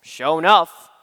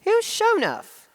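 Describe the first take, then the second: First: "Sure enough" in a Southern drawl, said low; a lightly attempted Southern phrase; trying a Southern accent. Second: Puzzled Southern lady. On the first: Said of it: "so I just said". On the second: Retold or imitated. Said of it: "she just looks at me and says".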